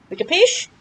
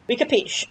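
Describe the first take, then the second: First: "capiche" rising as a question; questioning tune. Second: "capiche" falling, answering itself; settled statement. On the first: To viewers about pronunciation, asking "capiche" with a rising tune. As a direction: ask "We capiche?" with a lift at the end. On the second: Answering his own question to viewers, "capiche" falling firmly. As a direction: close "We capiche." with a firm falling tune. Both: Shown as a demonstration.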